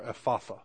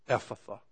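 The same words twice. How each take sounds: First: EPHATHA stressed on the middle syllable, eff-AH-thuh; alternate pronunciation. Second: EPHATHA stressed on the first syllable, EFF-uh-thuh; alternate pronunciation. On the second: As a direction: say Ephatha as EFF-uh-thuh, with a weak middle vowel. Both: Shown as a demonstration. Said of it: "put the emphasis on the right place".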